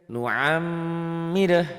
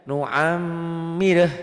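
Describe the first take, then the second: Both takes have the same delivery.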